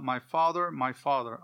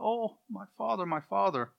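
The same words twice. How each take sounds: First: Said in the usual way. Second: High, plaintive mock cry. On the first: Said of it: "Elisha sighed, cried out". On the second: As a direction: cry out for a lost mentor, without shouting. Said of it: "crying out".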